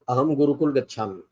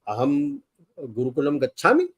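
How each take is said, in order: First: The voice falls at the end like a statement. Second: The voice rises at the end like a question. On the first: It states that I am going to school. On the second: It asks whether I am going to school.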